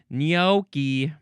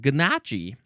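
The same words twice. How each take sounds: First: The word begins without any G sound. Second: The word begins with a hard G sound. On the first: The speaker calls it right. "You have to say gnocchi" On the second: The speaker calls it wrong. "a version of the pronunciation that starts with a G"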